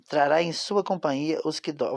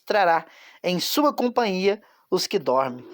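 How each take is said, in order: First: It is read at a quick pace. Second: It is read at a slower pace.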